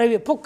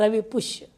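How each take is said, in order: First: The second word has a 'kh' sound. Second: The second word has an 'sh' sound.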